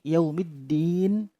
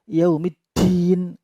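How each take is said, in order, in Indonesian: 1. Huruf d dilepas tanpa hembusan angin. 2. Huruf d dilepas dengan hembusan angin. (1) "Jadi yaumiddin" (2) "tidak boleh dibaca yaumiddin, angin keluar tidak boleh"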